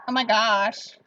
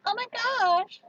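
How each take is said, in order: First: Put-on a lighter take on valley girl; plain-voiced valley girl. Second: Put-on high, airy valley girl gush. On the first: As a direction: say it again, less pitched up. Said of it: "Or like". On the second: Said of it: "I could talk like a valley girl". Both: Shown as a demonstration.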